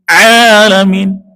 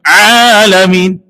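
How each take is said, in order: No difference in how they are said.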